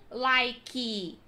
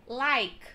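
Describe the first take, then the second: First: Like said as likey; extra final vowel. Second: Like ending on the k; silent e. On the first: Teacher showing the wrong like. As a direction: add an i sound after the k in like. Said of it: "não". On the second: Teacher modelling like with no final vowel. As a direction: stop like at the k sound. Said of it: "não like". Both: Shown as a demonstration.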